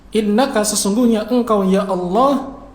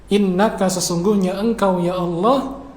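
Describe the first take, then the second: Both takes have the same delivery.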